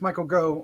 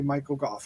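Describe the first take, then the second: First: The surname ends in a plain vowel sound. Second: The surname ends with an 'f' sound. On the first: This is how the speaker long said it. The speaker calls it wrong. "who I've pronounced Michael Go most of my life" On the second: This is the actual pronunciation. The speaker calls it right. "but I think it is actually Michael Gough"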